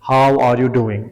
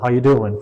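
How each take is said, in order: First: Each word is pronounced separately and fully. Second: The words run together with the verb dropped. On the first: This is how speakers sound in exam recordings. "हर लफ्ज को अलग अलग करके इलाहिदा इलाहिदा करके pronounce कर रहे होंगे" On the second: This is how people talk in normal conversation. "when a native speaker speaks, he somehow speaks like"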